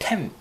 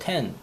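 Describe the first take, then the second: First: The syllable ends with an M sound. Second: The syllable ends with an N sound. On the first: "영어 발음 원래는 템" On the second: "발음은 텐이라고 하죠"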